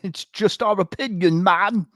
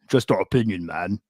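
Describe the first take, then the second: First: It is said in an English accent. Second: It is said in his plain accent.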